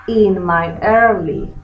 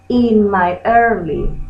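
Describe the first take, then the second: No difference in how they are said.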